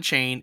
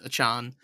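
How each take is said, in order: First: The last syllable sounds like 'chain'. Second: The last syllable sounds like 'chan'. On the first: The speaker calls it wrong. "It's not a chain" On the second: The speaker calls it right. "It's a chan"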